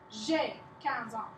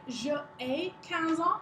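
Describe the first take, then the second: First: Je is shortened and joined onto ai. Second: Je is a separate full syllable before ai. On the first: The speaker calls it right. "you say" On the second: The speaker calls it wrong. "You don't say"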